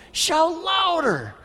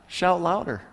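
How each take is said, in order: First: "Shout louder" pitched high and slow; exaggerated taunt. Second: Light teasing. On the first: Elijah mocking the prophets, high and slow. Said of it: "you can see him saying to him". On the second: Retold or imitated. Elijah lightly teasing the prophets at noon. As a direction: toss off the dare lightly. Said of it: "he starts teasing them".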